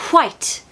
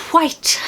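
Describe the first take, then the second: First: The W is breathy, with a puff of air. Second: The same.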